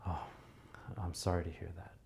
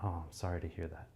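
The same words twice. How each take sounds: First: Deep breath, heavy soft sympathy; exaggerated sympathy. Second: Soft, simple sympathy; understated condolence; plain condolence. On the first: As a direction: lay the concern on thick. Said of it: "Much more, like, emphasize it". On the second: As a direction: say it simply and quietly. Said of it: "you might just be like". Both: Shown as a demonstration.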